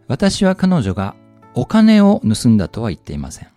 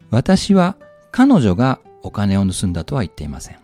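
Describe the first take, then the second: First: The word お金 is stressed. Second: The word 彼女 is stressed. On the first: She may have stolen something other than money. "三つ目、お金は盗んでないけど何かもしかしたら盗んだな。" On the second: Someone other than her stole it. "二つ目、私は彼女が犯人じゃない。"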